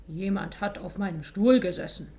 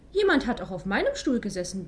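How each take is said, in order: First: Loud, threatening papa bear grumble; menacing growl. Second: Mother Bear. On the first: Father Bear finds his chair used, menacing growl. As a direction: growl it as a warning. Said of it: "brummte Vater Bär bedrohlich". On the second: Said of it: "bemerkte Mutter Bär". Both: A narrator's reading.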